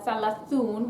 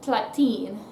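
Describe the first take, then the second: First: The word ends with an 'oon' sound. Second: The word ends with an 'een' sound. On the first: The speaker calls it wrong. "instead of saying" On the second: The speaker calls it right. "we're going to say"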